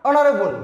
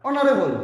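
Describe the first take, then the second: No difference in how they are said.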